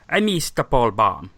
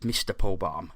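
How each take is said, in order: First: It is said in a put-on Italian accent. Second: It is said in his normal accent.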